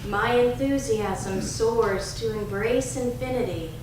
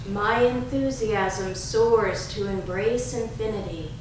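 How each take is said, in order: The two takes are said the same way.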